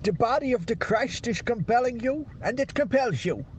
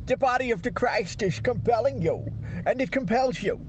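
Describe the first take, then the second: First: Swedish accent attempt. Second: Careful second go at a Swedish priest; Swedish accent attempt. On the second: Friend retrying the Exorcist line, Swedish accent. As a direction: do the Swedish priest again, sure you've got it. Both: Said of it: "I think I've got it".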